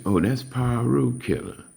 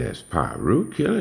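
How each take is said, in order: First: "Piru Killer" stated high, then falling at the end; explanatory statement. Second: "Piru Killer" echoed back as a doubting question. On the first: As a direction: explain "Piru Killer" as a plain fact, pitched up. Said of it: "Dude say". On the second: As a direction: repeat "Piru Killer" higher, as if checking it. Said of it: "I said". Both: Retold or imitated.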